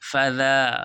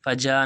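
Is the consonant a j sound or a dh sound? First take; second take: dh sound; j sound. First: The consonant is a dh sound. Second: The consonant is a j sound. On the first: The speaker calls it right. "ज़ाल है" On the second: The speaker calls it wrong. "फजा नहीं"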